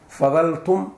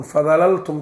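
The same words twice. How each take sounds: First: "Fadaltum" with one single l, ending lifted; contracted form. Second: "Fadalaltum" with both l's sounded; uncontracted form. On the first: Teacher quoting the Quranic form, "Fadaltum" with one l. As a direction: say "Fadaltum" as fa-dal-tum, rising. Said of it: "Fadalaltum tafakkahuun ma la dhihin". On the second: Teacher showing the form not used, "Fadalaltum" with two l's. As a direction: say "Fadalaltum" as fa-da-lal-tum. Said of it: "ma la dhihin". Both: Shown as a demonstration.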